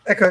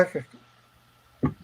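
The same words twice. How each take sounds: First: Said in the usual way. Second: Soft, slow repeating echo; fading echo. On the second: Shown as a demonstration. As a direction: let the word echo away, fading out. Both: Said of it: "It's like echo".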